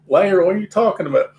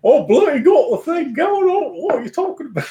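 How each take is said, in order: First: Said in the usual way. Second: Much higher, hammed-up bad British accent; a deliberately terrible British accent. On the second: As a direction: put on a clumsy fake British accent. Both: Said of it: "It's a bad British accent".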